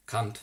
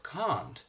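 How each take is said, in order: First: Cunt said with a short flat vowel; American can't. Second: Can't said with a long broad ah, kahnt; can't spoken as kahnt; standard can't. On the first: Reader mocking how Americans say cunt, short vowel. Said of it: "they say". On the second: Reader giving the correct can't, long ah. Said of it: "Instead of can't". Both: Shown as a demonstration.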